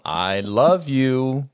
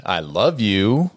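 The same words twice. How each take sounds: First: "I love you" very slow, "love" stretched; odd emphasis. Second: "I love you" slow, stress dragged onto "you" with a rise; wrong emphasis. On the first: Mom demoing an odd stress in "I love you". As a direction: drag out "love" very slowly. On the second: Mom showing the wrong emphasis in "I love you". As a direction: lean on "you" slowly and rising, the wrong syllable. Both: Shown as a demonstration. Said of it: "the wrong emphasis on the wrong syllable".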